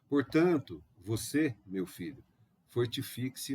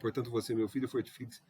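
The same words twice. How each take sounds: First: Short pauses separate each phrase. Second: The phrases run together without pauses. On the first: The speaker calls it right. "Fica mais gostoso de ouvir, não fica?" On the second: The speaker calls it wrong. "Não, dá aquela pausa"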